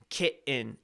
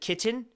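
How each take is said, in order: First: The middle T sound is dropped. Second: The middle T sound is clearly pronounced.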